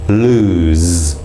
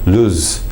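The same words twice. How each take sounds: First: The final Z is fully voiced and buzzing. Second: The final Z is weakened toward a hissing S. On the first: The speaker calls it right. "how we use the Z in the English pronunciation" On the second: The speaker calls it wrong. "it almost becomes an S quality"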